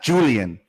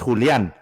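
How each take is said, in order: First: The name is said the English way. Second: The name is said in a non-English way. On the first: The speaker calls it wrong. "But that's the English way" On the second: The speaker calls it right. "make fun of my name the correct way"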